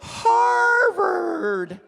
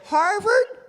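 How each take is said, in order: First: The vowel is stretched long in a high voice. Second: The vowel is said short and plain. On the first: "she elongates the vowel sound" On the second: "does she just say Harvard?"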